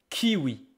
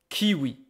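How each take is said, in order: The two takes are said the same way.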